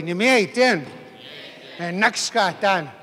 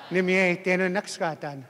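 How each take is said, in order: First: Firm, punched first word; with authority. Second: Said in the usual way. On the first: Shown as a demonstration. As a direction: say it like you mean it. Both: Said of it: "say it with authority".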